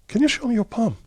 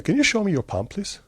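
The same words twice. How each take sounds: First: Much higher, pressing the question the second time; repeated insistent ask. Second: Raised pitch, asked once with a light polite lilt; first ask, pitched up and polite, to the old teacher; asking to see palm. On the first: Repeating the question to the puzzled teacher, pitched high and insistent. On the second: Retelling the plane meeting, asking the teacher to show his palm, mildly higher polite request. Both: Retold or imitated.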